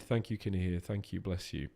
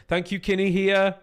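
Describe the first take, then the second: First: Low, soft mumbled thanks; quiet aside thanks. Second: Bright, loud shout-out to a donor; loud cheery thanks. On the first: Streamer quietly thanking the same donor again, offhand. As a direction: drop the voice and tuck the thanks away. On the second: Streamer loudly thanking a donor in chat, excited. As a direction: call the thanks out high and loud. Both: Real, not acted.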